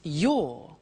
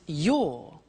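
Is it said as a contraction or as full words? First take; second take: contraction; contraction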